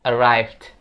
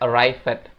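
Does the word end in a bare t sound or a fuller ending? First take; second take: bare t; fuller ending. First: The ending is just a t sound. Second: The ending is not reduced to a t. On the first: The speaker calls it right. "Jadi ed itu cuma dibaca t doang" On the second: The speaker calls it wrong. "ini bukan dibaca arrived"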